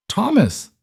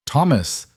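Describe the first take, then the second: First: Shrieked name, far higher; desperate scream. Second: Urgent call, a little higher. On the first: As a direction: scream his name in terror. Mother screams at unresponsive son. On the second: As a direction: call his name in alarm. Mother calls unresponsive son. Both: Acted.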